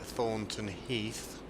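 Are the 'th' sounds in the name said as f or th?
th. The th sounds are said as th sounds. This is how the speaker normally says it. "But I will still call it Thornton Heath"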